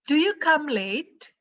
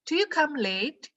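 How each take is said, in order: The two takes are said the same way.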